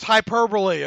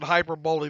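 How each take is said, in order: First: It ends with four syllables, like 'bully'. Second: It is said as spelled, ending like 'bowl'. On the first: The speaker calls it right. "I understand it's hyperbole" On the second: The speaker calls it wrong. "I like to pronounce it hyperbole the way it's uh, kind of kind of the way it's spelled"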